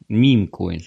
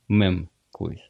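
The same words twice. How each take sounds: First: The word is pronounced the English way. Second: The word is pronounced the Russian way. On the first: "я еще раз говорю по-английски" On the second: "но по-вашему мем-коинс"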